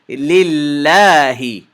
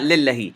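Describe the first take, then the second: First: The middle 'la' vowel is stretched to two counts. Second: The middle 'la' vowel is short, one count. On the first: The speaker calls it right. "This word is lillahi" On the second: The speaker calls it wrong. "This word is not lillahi"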